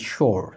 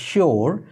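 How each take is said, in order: First: It is said American style, ending in an r sound. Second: It is said the common Bengali way, 'shi-or'. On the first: The speaker calls it right. "American English follow করে থাকেন তাহলে বলবেন sure অর্থাৎ আর এর উচ্চারণ করবেন" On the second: The speaker calls it wrong. "বাংলাতে প্রচলিত এই উচ্চারণটা হচ্ছে আমরা বলে থাকি sure অর্থাৎ শিওর কিন্তু হবে না"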